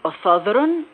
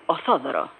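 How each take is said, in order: First: The word ends with an n sound. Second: The word ends in a vowel, no n. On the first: This is how the other Pontians say it. "Αντί" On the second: This is how the Sourmenians say it. "δεν προφέρουν το γράμμα νι στο τέλος των λέξεων"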